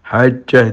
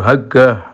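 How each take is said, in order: First: The middle consonant is a j sound. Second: The middle consonant is a hard g sound.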